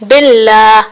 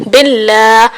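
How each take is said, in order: Both takes have the same delivery.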